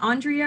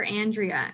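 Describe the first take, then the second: First: Andrea said the English way with broad AHN opening; English pronunciation. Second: Andrea said the English way with short-a AN opening; English pronunciation. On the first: Faculty asking which English version, "Andrea" opening on AHN. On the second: Faculty offering the other English version, "Andrea" opening on AN. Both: Retold or imitated. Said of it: "even in English, they'll be like".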